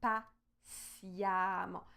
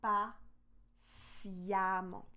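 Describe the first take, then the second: No difference in how they are said.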